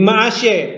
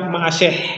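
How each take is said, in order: First: The final h sound is silent. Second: The final h sound is pronounced. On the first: "Karena ini tidak ada mapik, hanya tidak dibaca" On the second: "Kecuali kalau ada mapiknya"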